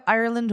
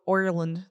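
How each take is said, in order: First: "Ireland" starting like "eye", Irish accent; Irish accent, open first vowel on "Ireland"; plain-vowel Irish accent. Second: "Ireland" as Oir-land, Irish accent; broad Irish accent. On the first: Host contrasting two Irish accents, open-vowel version. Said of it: "You can have Ireland or Oil". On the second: Host contrasting two Irish accents, broad "oi" version. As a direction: round the first vowel of "Ireland" into "oi", Irish. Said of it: "There's, like, two". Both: Shown as a demonstration.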